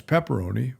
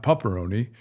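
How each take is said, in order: First: "pepperoni" with "pep" as in pepper; corrected pepperoni. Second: "pepperoni" said as "pupperoni"; first vowel of "pepperoni" turned into "uh"; mispronounced pepperoni. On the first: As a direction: say "pepperoni" with a clear "eh" first vowel. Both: Shown as a demonstration. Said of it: "which is not pepperoni".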